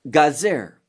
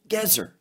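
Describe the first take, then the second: First: The first vowel sounds like 'a'. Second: The first vowel sounds like 'e'. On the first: This is the form used in this passage. "but here it's Gazer" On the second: This is the usual form of the name. "many times it's called Gezer"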